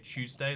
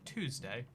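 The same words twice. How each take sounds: First: The first sound is not a clear T. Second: The first sound is a clear T. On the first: "Americans don't say Tuesday" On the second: "they say the T"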